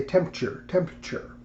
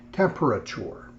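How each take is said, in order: First: "temperature" squeezed into "temp-cher", syllables dropped; "temperature" shortened with its middle dropped; clipped mispronunciation. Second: "temperature" said carefully, every syllable sounded; "temperature" said out in full; full pronunciation. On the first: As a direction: rush "temperature" and swallow the middle. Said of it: "they leave out parts of the symbol". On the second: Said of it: "Some people just say". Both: Shown as a demonstration.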